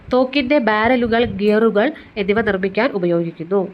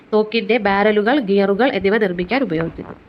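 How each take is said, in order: Both takes have the same delivery.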